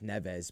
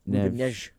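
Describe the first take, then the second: First: The name is said with English pronunciation. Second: The name is said with Portuguese pronunciation. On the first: The speaker calls it wrong. "we read that as Neves" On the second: The speaker calls it right. "It's like Neves or something crazy"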